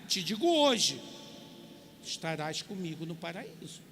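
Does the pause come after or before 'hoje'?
after. The pause comes right after 'hoje'. "a tradução do Novo Mundo"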